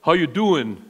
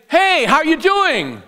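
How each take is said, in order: First: Low, casual Philly greeting; Philly accent. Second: High-pitched, chirpy informal hello; casual greeting. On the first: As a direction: greet like a Philadelphia local, pitched down. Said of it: "If you're from Philly". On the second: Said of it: "The common informal way somebody". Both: Acted.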